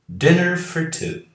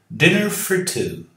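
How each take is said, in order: The two takes are said the same way.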